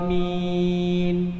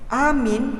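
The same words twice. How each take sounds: First: The first vowel is held very long. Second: The first vowel leans toward an e sound. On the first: "panjang A tu enam harkat" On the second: "dengan imalah pada huruf hamzah"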